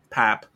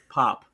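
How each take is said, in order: First: The vowel is fronted toward 'a', northern style. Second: The vowel has an ordinary, unaccented 'o' sound.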